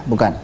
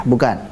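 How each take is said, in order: Both takes have the same delivery.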